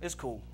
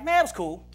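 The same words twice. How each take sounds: First: Low, very soft downbeat reply. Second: Easy reply after a good day; upbeat meaning. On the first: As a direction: imitate a man quietly covering a bad day. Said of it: "that means it was bad". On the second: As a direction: imitate a man casually pleased with his day. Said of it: "that means it was good". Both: Retold or imitated.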